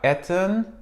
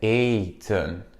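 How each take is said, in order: First: The first vowel is short. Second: The first vowel is long. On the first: The speaker calls it wrong. "C'est pas eten, non" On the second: The speaker calls it right. "c'est eten"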